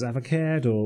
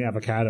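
First: AVOCADO with a Limerick middle vowel, "ava-keh-do"; Limerick accent. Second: Said in the usual way. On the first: Retold or imitated. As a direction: say "Avocado" as a Limerick local would. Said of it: "the way someone from Limerick would". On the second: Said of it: "which is the way someone from Limerick would".

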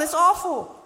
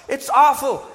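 First: "awful" even higher, a squeal of disgust; mock horror. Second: "awful" drawn out, high and loud; mock horror. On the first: Preacher topping the priests' outrage, very high. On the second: Preacher voicing the appalled priests, high and loud. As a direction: clutch your pearls on "awful". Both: Priests horrified at temple scene.

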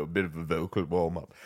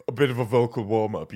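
First: Low warm-up voice. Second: Said in the usual way. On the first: Shown as a demonstration. Warming up his voice for scripts, in a low soft rumble. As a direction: drop the line much lower and softer.

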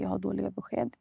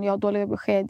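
First: Said in the usual way. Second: Brother breaking bad news, a little firmer; retold bad news. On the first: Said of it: "han tittar på mig och han säger". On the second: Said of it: "och sen säger han".

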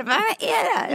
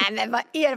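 First: High, loud startled question; alarmed what is that; shocked shriek. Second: Said in the usual way. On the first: Retold or imitated. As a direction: squeal in disbelief. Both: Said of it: "Och jag bara".

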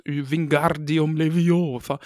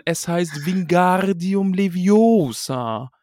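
First: Leviosa said slowly and carefully with a falling close; calm show-off spell casting; lightly voiced Hermione; Hermione's spell. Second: Leviosa drawn out slow with the long o stressed, higher; mock know-it-all correction; Hermione correcting. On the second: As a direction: lecture him on the right way to say Leviosa. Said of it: "Hermine meckern".

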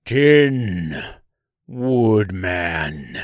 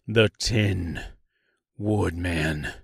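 First: Drawn-out creature cry, loud at first; monster's scream. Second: Low, drawn-out southern naming; name yourself slowly with a southern lilt; slight southern accent. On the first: Giant tree recognizing its worst enemy, drawn-out scream. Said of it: "it screamed". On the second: Tin Woodman introducing himself to the tree, slight southern drawl. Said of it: "he replied with a slight southern accent". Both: A narrator's reading.

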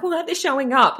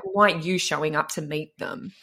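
First: Mock indignant complaint. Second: Pointed retort. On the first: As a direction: play the annoyed coach griping a bit. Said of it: "People get mad at their clients". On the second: Shown as a demonstration.

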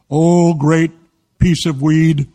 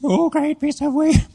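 First: Loud, drawn-out mock invocation; mock worship. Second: High, slow mock-girl chant; girl's reluctant repeat. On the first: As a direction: lead a mock prayer, loud and solemn. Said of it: "Now say this with me". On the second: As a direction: imitate a girl repeating a mock prayer, pitched way up. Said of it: "And she said".

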